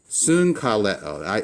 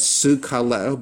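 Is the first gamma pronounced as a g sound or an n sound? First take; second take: n sound; g sound. First: The first gamma is said as an n. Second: The first gamma is said as a hard g. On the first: The speaker calls it right. "You would pronounce this as soon kaleo" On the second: The speaker calls it wrong. "Wouldn't you pronounce this as sugkaleo? But you don't"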